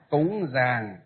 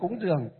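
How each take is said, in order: First: The second word has the 'ang' vowel sound. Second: The second word has the 'uong' vowel sound. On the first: This is the Northern reading of the term. The speaker calls it right. "còn miền Bắc chúng ta là cúng gì?" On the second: This is the Southern reading of the term. The speaker calls it wrong. "Cúng giường là từ miền Nam"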